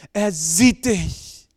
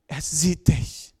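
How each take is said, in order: First: Louder and very slow; slow, emphatic repeat. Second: Said in the usual way. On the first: Shown as a demonstration. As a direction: lean hard into each word of Er sieht dich.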